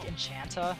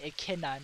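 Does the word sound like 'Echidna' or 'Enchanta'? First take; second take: Enchanta; Echidna. First: The word is pronounced like 'Enchanta'. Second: The word is pronounced like 'Echidna'. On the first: The speaker calls it wrong. "I always used to say Echidna like Enchanta" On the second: The speaker calls it right. "you actually say Echidna"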